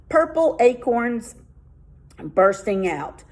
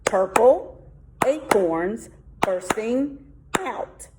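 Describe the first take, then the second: First: Said in the usual way. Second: "Purple acorns bursting out" drawn out slowly, syllable by syllable; slow count. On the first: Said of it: "test out their haiku". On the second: Shown as a demonstration. Teacher counting seven syllables aloud, slowly. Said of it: "There's my seven".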